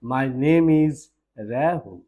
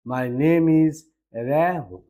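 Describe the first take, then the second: No difference in how they are said.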